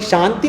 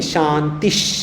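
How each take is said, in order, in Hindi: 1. शब्द सादे स्वर से खत्म होता है, अंत में कोई साँस नहीं। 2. शब्द के अंत में एक अतिरिक्त साँस वाली h की आवाज़ जुड़ी होती है। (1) "शांति नहीं"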